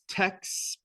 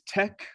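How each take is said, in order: First: The word ends with a ks sound. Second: The word ends with a k sound. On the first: "pronouncing the X here like an English X" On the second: "the cool way to pronounce it is tech, like technology"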